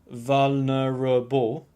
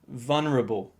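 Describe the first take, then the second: First: All syllables are given equal, full weight. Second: The third syllable is reduced and very weak. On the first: The speaker calls it wrong. "don't give the same amount of stress to each syllable... don't pronounce it vulnerable" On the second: The speaker calls it right. "The third syllable is very weak... Pronounce it like vulnerable"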